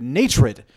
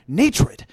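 First: "Natred" blurted loud, the new name clicks; eureka. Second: "Natred" again, much higher and loud, pleased with it; triumphant. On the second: Naming himself at the campfire, triumphant shout. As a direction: shout "Natred" high like a victory cry. Repeating the new name proudly. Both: Retold or imitated.

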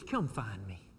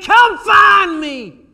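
First: Much lower, softer begging; quiet plea. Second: Slow, shouted, much higher plea; crying out to God. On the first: Pastor voicing the psalmist: hushed, low plea. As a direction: murmur it, barely there. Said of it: "He says". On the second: Psalmist crying out to God: slow, loud, high shout. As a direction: cry it out slowly, begging. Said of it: "he's crying out to God". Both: Retold or imitated.

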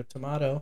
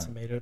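First: "tomato" as "tuh-MAH-toh"; second pronunciation variant. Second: "Tomato" as "tuh-MAY-toh"; first pronunciation variant. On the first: Joking that either pronunciation works, "tomato" as "tuh-MAH-toh". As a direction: say "tomato" with an open ah in the middle. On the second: Joking that either pronunciation works, "Tomato" as "tuh-MAY-toh". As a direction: say "Tomato" with a long ay in the middle. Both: Shown as a demonstration. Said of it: "I say things wrong all the time".

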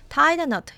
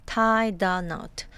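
First: Said in the usual way. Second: Tie the knot, drawn out word by word; slow model. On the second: Shown as a demonstration. Teacher modelling a new idiom, slow and measured tie the knot. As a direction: say tie the knot slowly for learners.

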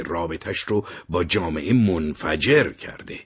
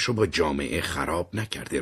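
First: منفجر held slow and lifted, the whole line slowed down; stress on منفجر. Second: Said in the usual way. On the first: Retold or imitated. Terry correcting himself, stressing منفجر slowly. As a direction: lean hard on منفجر as the correction.

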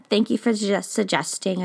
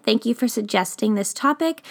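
First: Stumbled, broken-off phrasing; stumbling over words. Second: Said in the usual way. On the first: Real, not acted. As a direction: trip over the words, then recover. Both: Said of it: "I stumbled over my words".

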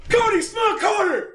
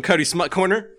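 First: Very high-pitched announcing yell; shouted jingle-style announcement; sudden yell. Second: Said in the usual way. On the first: Pretend. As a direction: yell it out like a segment title, far higher. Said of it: "Why did you just yell it?".

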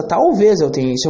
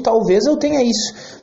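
First: Talvez stressed, the rest level. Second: Eu stressed with a falling tune. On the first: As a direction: hit talvez, keep eu tenha isso light. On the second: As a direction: lean on eu, let isso drop. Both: Shown as a demonstration. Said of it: "Tu vê a diferença".

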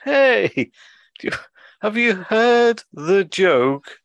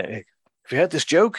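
First: Loud, high, painfully drawn-out sloth; slow sloth. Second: Said in the usual way. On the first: Retold or imitated. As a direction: stretch every word as far as it goes. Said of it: "the sloth turns to his cohort".

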